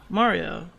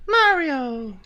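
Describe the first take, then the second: First: Said in the usual way. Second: "Mario" drawn out, high and loud, falling at the end; exaggerated Mario. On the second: Shown as a demonstration. Streamer answering how he says Mario, exaggerated "Mario". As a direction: call out "Mario" long from a high start. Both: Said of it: "How the fuck did you say Mario?".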